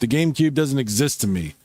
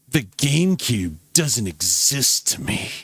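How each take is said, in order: First: It is read plainly, without added emphasis. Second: It is read dramatically, with strong emphasis.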